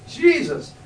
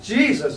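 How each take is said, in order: First: Jesus cried out high and loud from the heart; heart's cry. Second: Said in the usual way. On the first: Retold or imitated. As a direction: call out the name high and loud, straight from the heart. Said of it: "I just cried from the, my, the center of my heart". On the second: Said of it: "It was just".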